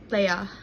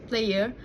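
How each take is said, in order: First: The final R sound is dropped. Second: The final R sound is pronounced.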